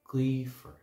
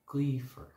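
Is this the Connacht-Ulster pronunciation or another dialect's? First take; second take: Connacht-Ulster; Connacht-Ulster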